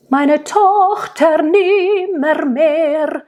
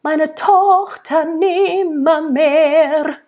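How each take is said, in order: First: Sung, slow and high, rolling the r in Tochter nimmermehr; singing Meine Tochter nimmermehr with exaggerated rolled r's; over-rolled r. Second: Sung slow and high, rolling only the last r of nimmermehr; rolled final r. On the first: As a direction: roll every r in Tochter nimmermehr hard. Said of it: "That's way too much rolled R". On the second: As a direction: sing it with rage, one rolled r at the end of nimmermehr. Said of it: "you might roll the R at the very end". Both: Shown as a demonstration.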